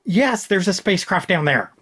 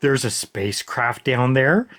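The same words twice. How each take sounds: First: "down there" as a falling, high statement; higher-pitched "yes", then firm fall to "there"; exasperated confirmation. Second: "down there" rising into a puzzled question; mock-clueless query, voice climbing on "there"; dense echo question. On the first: Real, not acted. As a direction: state the obvious, dropping on "there". Answers the echoed question in exasperation. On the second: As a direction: repeat it as a question, lifting at "there". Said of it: "just repeats the same thing they just said to him and just asks".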